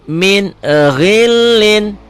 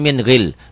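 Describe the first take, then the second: First: The word ends with the full -in sound. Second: The word stops without the final -in sound. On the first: The speaker calls it wrong. "Ini dibaca apa adanya ya. Kalau baca Quran udah salah begitu" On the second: The speaker calls it right.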